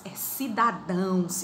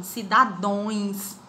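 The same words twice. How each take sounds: First: Cidadãos said slowly with the ending ãos; right form. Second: Cidadões said slowly with the ending ões; wrong form. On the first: Teacher correcting to cidadãos for the student. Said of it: "o plural de cidadão não é cidadões". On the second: Teacher showing the wrong plural Cidadões, slowly. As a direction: stretch Cidadões as the common mistake. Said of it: "Tá errado demais". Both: Shown as a demonstration.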